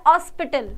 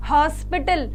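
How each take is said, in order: First: हॉस्पिटल with no h, starting straight on the vowel 'ऑस्पिटल'; हॉस्पिटल said as 'ऑस्पिटल', h dropped; silent h. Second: हॉस्पिटल with a clear h sound at the start; हॉस्पिटल, starting on a breathy h; pronounced with h. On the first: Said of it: "ह की आवाज़ ही नहीं आती है". (हॉस्पिटल बिना ह की आवाज़ के) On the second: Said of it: "जैसे हिंदी में कहते हैं ना अस्पताल". (हॉस्पिटल ह की आवाज़ के साथ) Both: Shown as a demonstration.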